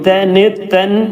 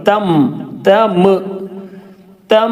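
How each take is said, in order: First: The syllable ends with an n sound. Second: The syllable ends with an m sound. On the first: The speaker calls it wrong. "തെന് തെൻ എന്ന് പറയുന്നതിന് പകരം" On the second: The speaker calls it right. "തം തം തം എന്നാണ് പറയേണ്ടത്"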